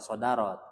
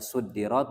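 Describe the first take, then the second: First: The word begins with an a vowel. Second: The word begins with a u vowel. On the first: Something comes at the front. "bisa sodarot" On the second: Something is placed at the front. "bisa dibaca suddirat"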